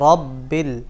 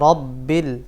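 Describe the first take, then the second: The two takes are said the same way.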